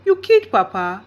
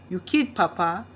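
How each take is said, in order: First: Same words, now louder and sharper; louder disbelief. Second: Said in the usual way. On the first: A narrator's reading. Father realising his mother killed Papa, louder. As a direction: let the shock break through. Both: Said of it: "Dad asked".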